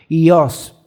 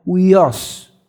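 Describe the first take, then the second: First: The word starts directly with an 'ee' sound. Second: The word starts with an 'oo' sound. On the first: This is the modern Greek pronunciation. "en el griego moderno se pronuncia como ios" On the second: This is the ancient Greek pronunciation. "en el antiguo era como uios"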